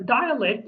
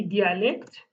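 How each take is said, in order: First: "dialect" starting with an English DIE; English pronunciation. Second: "dialect" said the Kurdish way, dee-ah-LEKT; Kurdish pronunciation. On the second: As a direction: say "dialect" with dee-ah, not die-uh. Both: Shown as a demonstration. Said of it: "in Kurdish we say dialect".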